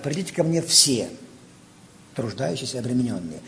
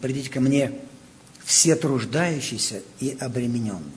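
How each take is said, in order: First: There is a pause after the word 'все'. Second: There is no pause after the word 'все'. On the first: Everyone is called to come. The speaker calls it wrong. "Как часто вот этот текст читает немножко неправильно. Читает вот так" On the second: Those who labor and are burdened are called to come. The speaker calls it right. "Он говорит"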